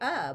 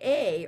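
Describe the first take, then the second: First: The vowel is a short, weak 'uh' sound. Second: The vowel is a full 'ay' sound. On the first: "or I can say uh" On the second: "I can say A"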